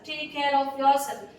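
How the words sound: It is said gently, with empathy.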